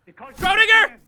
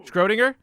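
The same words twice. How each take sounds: First: Schrodinger! yelled high and loud; hammy villain cry of Schrodinger!; dramatic shout. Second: Said in the usual way. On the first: Shown as a demonstration. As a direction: shout the name like a mad scientist.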